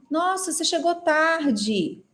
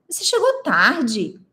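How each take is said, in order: First: Slower, dismayed take of the line; second take, more reproachful; surprised reproach. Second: Slow, pointed delivery of the line; expressive demo. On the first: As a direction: let "Nossa" carry dismay over lateness. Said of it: "Agora, se eu falar assim". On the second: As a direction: say it as a plain remark, slowly. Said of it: "se eu falar assim". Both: Shown as a demonstration.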